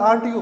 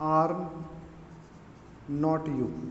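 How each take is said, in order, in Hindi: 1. Are और not तेज़ी से जुड़कर एक हो जाते हैं। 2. Are और not दो अलग-अलग शब्दों के रूप में बोले जाते हैं।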